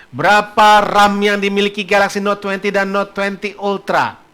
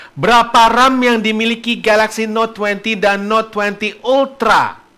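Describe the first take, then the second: Both takes have the same delivery.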